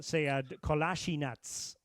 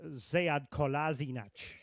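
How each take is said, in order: First: The name is said with a Bosnian pronunciation. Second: The name is said with a German pronunciation. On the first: "in Bosnian" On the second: "in German, it was uh"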